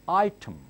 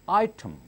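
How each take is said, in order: Both takes have the same delivery.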